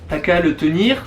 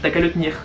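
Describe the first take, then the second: First: The e sounds are pronounced fully. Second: The e sounds are dropped.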